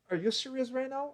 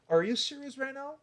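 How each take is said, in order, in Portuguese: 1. A entonação sobe e desce com melodia animada. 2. A entonação sobe e desce com melodia animada.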